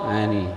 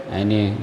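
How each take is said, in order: The two takes are said the same way.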